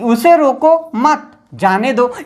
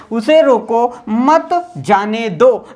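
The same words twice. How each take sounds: First: "रोको मत" run together, then a break; "मत" joined to "रोको", pause before slower "जाने दो"; pause after मत. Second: "उसे रोको" as one unit, pause, "मत जाने दो" slowly; pause after रोको. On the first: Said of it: "रोकना नहीं है". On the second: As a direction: clear break after "रोको", then slow "मत जाने दो". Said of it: "हमने यहाँ पे विराम चिन्ह लगा दिया". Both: Shown as a demonstration.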